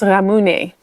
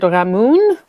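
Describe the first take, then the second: First: The word ends with a final vowel sound. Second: The word ends without a final vowel sound. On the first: The speaker calls it right. "I think it's more pronounced ramune" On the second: The speaker calls it wrong. "I think I said ramun"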